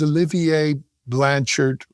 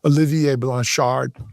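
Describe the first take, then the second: First: The name is said with an English accent. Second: The name is said with a French accent.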